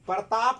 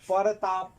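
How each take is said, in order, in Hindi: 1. शुरुआती व्यंजन-गुच्छ बिना स्वर के बोला जाता है। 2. शुरुआती व्यंजन-गुच्छ के भीतर एक स्वर डाला जाता है।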